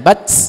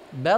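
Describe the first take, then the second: First: The final consonant ends with an s-like hiss. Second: The final consonant ends with no s-like hiss. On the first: The speaker calls it wrong. "nggak gitu" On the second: The speaker calls it right. "Nggak ada S-nya"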